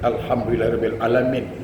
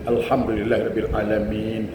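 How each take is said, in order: First: A short vowel is dropped, making it clipped. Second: Every short vowel is pronounced in full. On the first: The speaker calls it wrong. "ada yang mati baris bawah" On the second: The speaker calls it right. "Itu baru betul"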